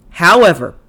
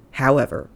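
First: "However," said loud with a falling tune; a mock-grand "However," announcing the twist; loud dramatic however. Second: Said in the usual way. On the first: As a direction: boom out "However," for effect. Dramatic repeated transition word.

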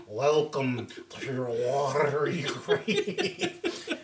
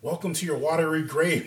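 First: Very slow, drawn-out mock-eerie welcome with laughter; exaggerated elongated spooky greeting; rolled-off delivery. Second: Said in the usual way. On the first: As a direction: roll and stretch every word for comic effect. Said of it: "you gotta roll that off". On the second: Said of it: "Nah, baby, you gotta roll that off".

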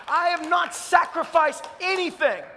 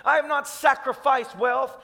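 First: Not pushed higher in a ringing preach; stress on NOT. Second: Said in the usual way. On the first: Real, not acted.

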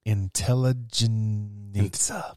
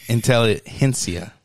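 First: Intelligenza said slowly and carefully, unsure of the sounds; slow hesitant Intelligenza; unsure pronunciation. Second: Slow corrective intelligentsia; corrected pronunciation. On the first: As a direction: sound out Intelligenza haltingly, like a guess. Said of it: "I don't know how to pronounce this". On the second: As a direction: teach intelligentsia carefully, g like an h. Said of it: "Spanish tip for you". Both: Shown as a demonstration.

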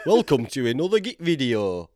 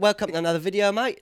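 First: Loud, higher hammed-up Yorkshire welcome; exaggerated Yorkshire accent. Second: High, loud mock southern English; put-on southern English accent. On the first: Dub over his southern videos, exaggerated Yorkshire accent. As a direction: belt out a broad mock Yorkshire intro. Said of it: "Turn up the Yorkshire". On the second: Yorkshireman imagining his future southern videos, mock southern accent. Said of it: "doing a few videos down south".

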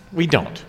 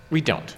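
Both takes have the same delivery.

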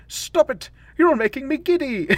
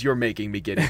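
First: Much higher, a giddy squealing plea; dizzy Doctor protest. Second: Said in the usual way. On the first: Retold or imitated. The Doctor spun into darkness by the Time Lords, squealing giddily. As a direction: squeal it while spinning out of control. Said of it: "And then he's like". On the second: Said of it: "no one says".

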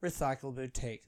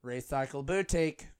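First: Recycle Boutique softer, falling at the end; announcer inflection. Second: Recycle Boutique with a lift on BOUTIQUE; announcer inflection. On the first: Comedian playing with a shop name like a train stop, falling announcer inflection. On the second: Comedian playing with a shop name like a train stop, announcer inflection. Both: Shown as a demonstration. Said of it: "sounds like someone's announcing".

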